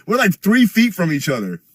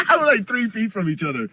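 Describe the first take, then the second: First: Said in the usual way. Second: Laughing, higher, at how close the cops were. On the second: Real, not acted. Streamer retelling the cop standoff, laughing. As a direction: break into a laugh on the repeat.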